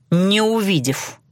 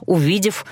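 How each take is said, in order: First: "не" stressed and drawn out, falling tune; slow, deliberate "не увидев", weight on "не". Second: Said in the usual way. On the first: A narrator's reading. Corrects herself with negation.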